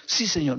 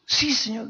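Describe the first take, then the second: First: Said in the usual way. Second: Quick, much higher eager yes; hasty answer. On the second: Acted. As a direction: blurt it out in a rush, pitched up. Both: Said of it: "¿Por qué tanta prisa?".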